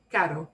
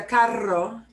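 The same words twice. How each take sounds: First: "caro" with one quick tapped R; single R. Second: "carro" with a rolled R, louder; double R trill. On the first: Teacher explaining costs a lot, "caro" with single R. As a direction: tap the R once in "caro", no roll. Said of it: "one R". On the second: Teacher contrasting car with costly, "carro" with trilled R. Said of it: "if you trill the R a little less". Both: Shown as a demonstration.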